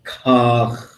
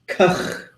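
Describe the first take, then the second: First: The word is said on a low tone. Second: The word is said on a high tone. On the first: "when it's low like that" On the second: "with a high tone"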